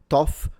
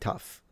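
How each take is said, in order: First: The word rhymes with off. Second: The word rhymes with cuff. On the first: The speaker calls it wrong. "some people do pronounce it toff, depending on the accent" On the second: The speaker calls it right. "they will correct you that it's actually tough"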